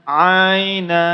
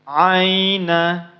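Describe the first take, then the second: First: The word ends with a final vowel sound. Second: The word ends with a final vowel sound.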